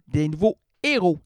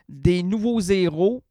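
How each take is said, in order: First: No z sound links nouveaux to the next word. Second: A z sound links nouveaux to the next word. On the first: The speaker calls it right. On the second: The speaker calls it wrong.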